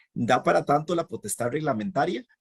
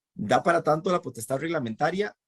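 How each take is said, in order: No difference in how they are said.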